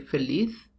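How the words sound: It has a Spain accent, z like th.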